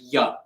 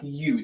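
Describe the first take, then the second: First: The word has a short, reduced vowel. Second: The word has a full, long vowel. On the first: The speaker calls it right. "they'll just say ya" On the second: The speaker calls it wrong. "people wouldn't really say you"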